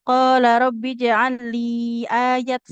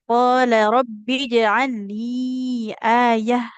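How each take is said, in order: First: The last word ends with a t sound. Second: The last word ends with a breathy h sound. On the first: The speaker calls it wrong. "Jadi tidak" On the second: The speaker calls it right. "berubah jadi huruf ha sukun"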